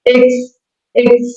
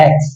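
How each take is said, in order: First: এক্স with a close vowel, pitched higher; correct English X. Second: এক্স with a low, wide-open vowel; wrong X. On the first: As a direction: say এক্স high and tight, "eks". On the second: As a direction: open the first vowel of এক্স towards "aks". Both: Shown as a demonstration. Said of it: "not এক্স".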